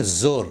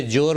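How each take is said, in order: First: "زور" opening on a buzzing z; careful "زور" with initial z; correct z sound. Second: "جور" said with a j sound; mispronounced j for z. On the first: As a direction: say "زور" with a clear z, not j. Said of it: "جور نہیں". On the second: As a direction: say "جور" with j instead of z. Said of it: "جور نہیں، زور". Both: Shown as a demonstration.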